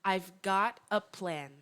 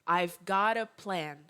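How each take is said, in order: No difference in how they are said.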